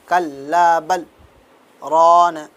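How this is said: The voice stops briefly after kalla.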